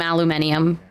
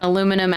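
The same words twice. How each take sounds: First: "aluminium" said the British way, five syllables, al-yoo-MIN-ee-um; British pronunciation. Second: Said in the usual way. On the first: Shown as a demonstration. Joking with friends about British words, saying "aluminium" the British way. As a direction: stress the MIN in "aluminium", with an extra ee before the end. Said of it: "Tomato, tomato". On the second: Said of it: "Potato, potato".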